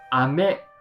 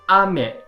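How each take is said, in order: First: Said with the pitch pattern meaning candy. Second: Said with the pitch pattern meaning rain. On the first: The word means candy. "it means candy" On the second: The word means rain. "it means rain"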